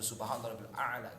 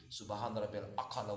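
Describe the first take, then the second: First: The last word has no k sound. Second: The last word has a k sound.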